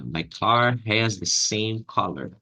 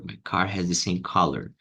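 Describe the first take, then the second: First: Stretched, careful sentence; slowed teaching model; slow demo. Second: Said in the usual way. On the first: Shown as a demonstration. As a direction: dictate it slowly. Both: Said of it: "Ah, my".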